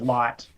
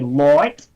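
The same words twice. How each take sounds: First: It is said with a plain, unexaggerated vowel. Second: It is said with an exaggerated Australian vowel.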